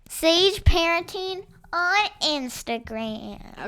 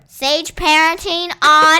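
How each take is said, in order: First: It is said at a normal volume. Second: It is screamed loudly.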